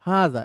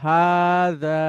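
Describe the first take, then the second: First: The long vowel is lengthened only slightly. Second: The long vowel is carefully drawn out. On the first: This is how it is said in everyday speech. "এই হাতেই আমি একটা টান দিচ্ছি" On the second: This is how it is said when reciting scripture. "আর আমি যদি কোরআন পড়ি স্যার, তখন এভাবে বলবো"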